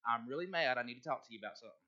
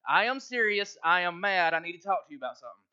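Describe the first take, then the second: First: Low, quiet declaration of being mad; serious warning of anger. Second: Firm and emphatic, louder at the start; serious, mad declaration. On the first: Pastor coaching Kirk how to announce anger, low and serious. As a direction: state it low and softly, in earnest. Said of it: "if you ever are mad". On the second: Pastor showing Kirk how to say he's mad, emphatic. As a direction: punch out the opening, then hurry the rest. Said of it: "really serious and you're really mad". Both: Shown as a demonstration.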